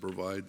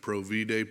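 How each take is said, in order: First: The word has an English pronunciation. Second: The word has a Latin pronunciation. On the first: "We pronounce it provide" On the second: "They pronounce it in Latin"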